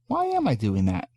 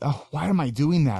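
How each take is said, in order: First: It sounds open and curious. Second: It sounds judgmental and self-critical.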